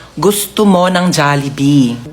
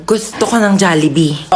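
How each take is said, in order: First: Mabagal na "gusto mo ng Jollibee"; isa-isang bigkasin para matuto; slow coaching. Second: Said in the usual way. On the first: Shown as a demonstration. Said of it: "Sabihin mo kay Mama". (mabagal na pagtuturo) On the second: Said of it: "wag mo lalagyan ng daw".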